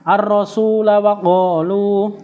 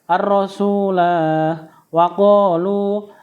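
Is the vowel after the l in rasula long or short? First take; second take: short; long. First: The vowel after the l is kept short. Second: The vowel after the l is held long. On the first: The reader joins it to the next verse. "jika dibaca wasal lamnya dibaca pendek" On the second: The reader stops at the end of the verse. "jika e, dibaca waqaf lamnya dibaca panjang"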